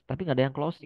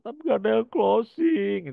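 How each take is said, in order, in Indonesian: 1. Nada tenang dan bertanya, mencari saran. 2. Nada merengek dan menggerutu, mengeluh. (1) "Tapi harus konsultasi itu" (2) "Beda itu mengeluh. Bukan konsultasi"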